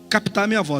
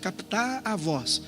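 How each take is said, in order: First: It is said at normal volume. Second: It is said very softly.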